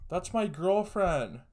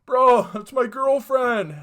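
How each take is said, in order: First: High, slow, raised voice, not yet full force; indignant call. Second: Very high, very loud, slow shout; full anguished yell. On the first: Boyfriend at the window, calling out slow and raised. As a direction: call it out slowly, higher and louder, still holding back. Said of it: "And I hear this guy go". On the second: Boyfriend staring through the window, yelling it at full force. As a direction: scream it slowly at the top of the voice. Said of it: "He's like". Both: Retold or imitated.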